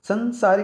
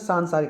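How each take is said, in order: First: The first vowel is short. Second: The first vowel is long. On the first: The speaker calls it wrong. "संसारिक नहीं होता" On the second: The speaker calls it right. "क्योंकि मैंने बताया था आ आएगा"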